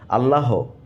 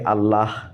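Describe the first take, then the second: First: The word ends with an added o vowel. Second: The word ends without an added vowel. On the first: "they say Allaho" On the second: "Some people cannot say Allah"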